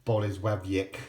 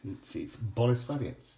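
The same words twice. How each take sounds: First: "Bolesławiec" said wrongly as "bo-lez-WAB-yek", ending in a hard k; wrong pronunciation. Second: "Bolesławiec" said slowly and carefully, "bo-le-SWA-vee-ets"; correct pronunciation. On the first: Correcting viewers: the wrong "Bolesławiec", said "bo-lez-WAB-yek". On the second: Teaching viewers the proper "Bolesławiec": slow, careful "bo-le-SWA-vee-ets". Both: Shown as a demonstration. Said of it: "That's how you pronounce that correctly".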